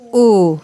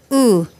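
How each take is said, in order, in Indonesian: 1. Vokal ini diucapkan dengan bibir membulat kuat dan maju. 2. Vokal ini diucapkan dengan pembulatan bibir yang lemah. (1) "tapi yang U. Jadi agak U" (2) "jangan U"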